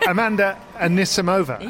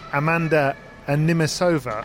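First: The surname goes a-ni-si-mo-va, with s before m. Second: The surname goes a-ni-mi-so-va, with m before s. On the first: The speaker calls it right. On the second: The speaker calls it wrong.

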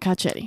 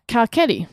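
First: The middle consonant is a soft CH sound. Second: The middle consonant is a hard K sound. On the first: The speaker calls it wrong. "not Carchetti" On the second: The speaker calls it right. "you say Carchetti"

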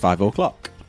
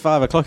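First: The o of o'clock is full, like 'oh'. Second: The o of o'clock is short and reduced. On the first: "he goes 5 o'clock. He says the O. Like it's an Irish name" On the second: "He doesn't say 5 o'clock"

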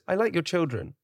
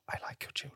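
First: It is said in a normal voice. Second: It is said in a whisper.

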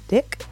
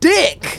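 First: It is said hesitantly, with low energy. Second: It is said loudly, with high energy.

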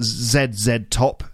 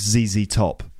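First: The letters are said as 'zed zed'. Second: The letters are said as 'zee zee'. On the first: The speaker calls it wrong. "it's not ZZ Top" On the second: The speaker calls it right. "it's ZZ Top"

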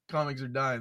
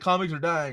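First: It sounds upset and disappointed. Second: It sounds gleeful and smug.

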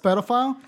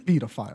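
First: It is said with the American pronunciation. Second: It is said with a non-American pronunciation. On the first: The speaker calls it wrong. "how everyone pronounces them in America ... people always say that it's pedophile" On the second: The speaker calls it right. "It's fucking pedophile"

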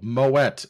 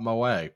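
First: The word ends with an audible t sound. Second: The word ends in a vowel, without t. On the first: The speaker calls it right. "Also, Moet" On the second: The speaker calls it wrong. "It's not Moe"

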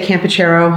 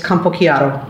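First: The name is said the American way. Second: The name is said the Italian way.

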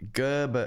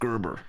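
First: The name is said in an Australian accent. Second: The name is said in an American accent. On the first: The speaker calls it wrong. "this Aussie accent, it was like Gerber" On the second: The speaker calls it right. "Gerber's a great name to say with the American accent"

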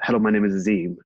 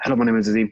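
First: It is said at a normal speed. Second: It is said very fast, like sped-up speech.

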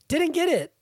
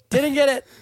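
First: It is spoken at a normal volume. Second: It is yelled loudly. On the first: "there's a lot of exclamation points in this, so I'm going to read it like that" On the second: "I could just yell"

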